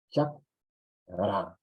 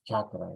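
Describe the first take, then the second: First: "chakra" split as chak, pause, ra; correct Quechua syllable split. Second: Said in the usual way. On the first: Shown as a demonstration. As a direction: cut "chakra" after the k, then a separate ra. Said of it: "la separación adecuada". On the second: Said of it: "no es chakra".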